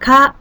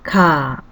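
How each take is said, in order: First: The vowel is held briefly. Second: The vowel is held twice as long.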